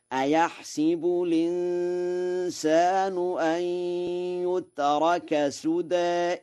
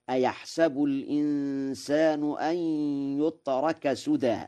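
First: High held chant, "أيحسب" as ayahsibu; chanted, intone "أيحسب" with i on س, ayahsibu, long vowels; chanted kasra reading. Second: Measured recitation, "أيحسب" as ayahsabu; fatha on sin. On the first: Teacher models the other verse, high chant with "أيحسب" as ayahsibu. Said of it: "يقرأها هكذا". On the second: Teacher quotes the other verse, reciting "أيحسب" as ayahsabu with fatha. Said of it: "وقراءة الفتح لغة تميم". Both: Shown as a demonstration.

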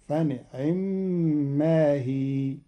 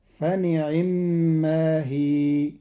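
First: فنعم with a snatched kasra on the ain; barely touch the kasra in فنعم; Qalun reading. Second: فنعم with a full kasra on the ain; Hafs reading. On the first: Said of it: "فتكون الكسرة مختلسة، فتصير هكذا". (فنعم باختلاس كسرة العين) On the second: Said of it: "بإخفاء كسر العين". (فنعم بكسر العين كاملا) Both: Shown as a demonstration.

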